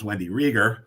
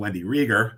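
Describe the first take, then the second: First: The surname is said the way locals say it. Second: The surname is said the way locals say it.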